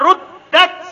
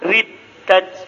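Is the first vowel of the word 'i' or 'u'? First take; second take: u; i. First: The first vowel is pronounced as u. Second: The first vowel is pronounced as i. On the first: This is the usual reading. "Kan begitu bacaannya?" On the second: This is an alternative attested reading. "Tapi telah dibaca riddat"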